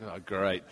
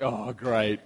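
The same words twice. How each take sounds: First: Flat, quieter, lower sarcastic oh great. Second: Low, muttered sarcastic "Oh, great.". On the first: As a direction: drop the voice low on "Oh, great.". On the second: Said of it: "It's like". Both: Retold or imitated.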